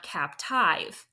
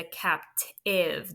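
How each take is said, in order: First: Captive with a long i, like cap-TYVE; wrong-vowel captive, ending in "tive" as in "hive"; long-i mispronunciation. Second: Captive with a short i, like CAP-tiv; slow captive, ending in a short "iv". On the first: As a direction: say captive to rhyme its ending with five. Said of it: "like a normal vowel dash E". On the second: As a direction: sound out captive as capt-iv. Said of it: "That I is short". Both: Shown as a demonstration.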